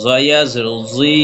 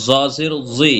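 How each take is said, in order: First: Final জি held one alif; recited spelling ending on a long জি; long madd vowel. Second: Final জি kept short; recited spelling with an unstretched জি; short vowel. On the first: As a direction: draw out the vowel of জি. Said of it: "এক লিপ টেনে পড়বো". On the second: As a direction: say জি briefly. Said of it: "হরকত উচ্চারণ তাড়াতাড়ি পড়বো". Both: Shown as a demonstration.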